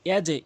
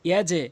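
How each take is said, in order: No difference in how they are said.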